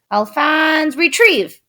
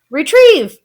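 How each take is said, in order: First: Command. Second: High, loud command to a pet; boy shouting to his pet; crying out. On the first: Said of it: "Louis would say". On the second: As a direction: shout the order eagerly. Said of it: "cried Louis". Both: A narrator's reading.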